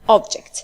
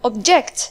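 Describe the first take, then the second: First: The stress is on the first syllable. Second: The stress is on the second syllable. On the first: An item. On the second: To disagree.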